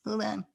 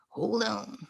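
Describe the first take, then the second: First: Said in the usual way. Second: Hushed whispered hold on. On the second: Real, not acted. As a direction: drop to a breathless whisper. Pausing the call setup.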